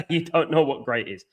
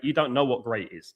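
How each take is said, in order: First: Laughing. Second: Said in the usual way. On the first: Real, not acted. Repeats the jibe, laughing.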